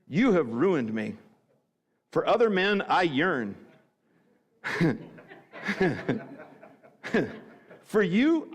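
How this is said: The phrase breaks after 'me' and after 'yearn'. The writer longs for other men instead.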